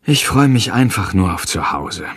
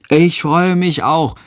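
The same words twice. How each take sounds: First: Said in the usual way. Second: Put-on higher and slow, eager child; little boy voice. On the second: A narrator's reading. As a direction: chime in like a small boy. Tom stimmt zu. (hohe, langsame Kinderstimme)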